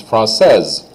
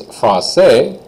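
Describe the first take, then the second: First: Française closing on a voiced Z. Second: Français with the final S left silent. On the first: Teacher models the girl form for students, final S as Z. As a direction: let the S of française buzz as Z. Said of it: "I say the S like a Z sound". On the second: Teacher models the boy form for students, final S silent. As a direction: end français on an open vowel, no S. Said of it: "don't say that S at all". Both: Shown as a demonstration.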